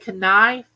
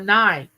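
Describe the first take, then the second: First: The K at the start is pronounced. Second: The K at the start is silent. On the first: The speaker calls it wrong. "Do you say knife?" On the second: The speaker calls it right. "The K is silent"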